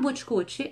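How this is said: The word is said with Brazilian Portuguese sounds. The speaker calls it wrong. "E não é bootcut ... essa pronúncia abrasileirada"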